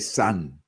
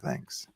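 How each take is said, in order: First: The word begins with an s sound. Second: The word begins with a th sound. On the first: The speaker calls it wrong. "like S A N" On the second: The speaker calls it right. "like with the th"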